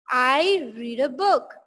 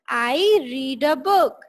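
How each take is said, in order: No difference in how they are said.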